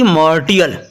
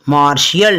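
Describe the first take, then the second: First: The middle consonant is said as 't'. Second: The middle consonant is said as 'sh'. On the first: The speaker calls it wrong. "ना कि मार्टियल" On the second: The speaker calls it right. "इसको क्या बोलेंगे, मार्शियल"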